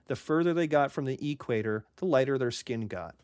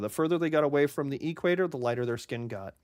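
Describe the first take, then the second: First: It is said slowly. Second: It is said fast.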